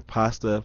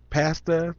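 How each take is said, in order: First: "Pasta" said pahs-ta, open ah as in father. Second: "Pasta" said pass-ta, flat a as in cat. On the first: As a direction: say "Pasta" with a broad ah vowel. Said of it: "same A as in father". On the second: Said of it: "do people say pasta?". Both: Shown as a demonstration.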